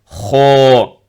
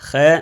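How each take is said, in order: First: The letter is said deep and heavy. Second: The letter is said light and thin. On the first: The speaker calls it right. "le bien prononcer grave" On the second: The speaker calls it wrong. "Et non pas khe. Khe, non"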